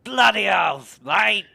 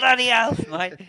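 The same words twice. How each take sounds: First: Loud, higher broad Aussie bark; aussie tradesman. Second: Much higher, loud broad Aussie shout; aussie tradesman. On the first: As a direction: belt it like a shouting Aussie tradie. Mates trading Aussie catchphrase. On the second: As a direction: crank the Aussie tradie up a notch. Repeating catchphrase even bigger. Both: Pretend.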